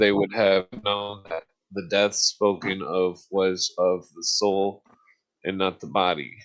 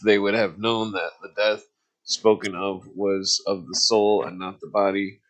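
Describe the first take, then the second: First: It is read at a slower pace. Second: It is read at a faster pace.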